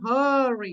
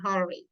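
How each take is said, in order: First: The first vowel is drawn out long. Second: The first vowel is said short. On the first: The speaker calls it wrong. "You don't say hurry" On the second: The speaker calls it right. "You say it short"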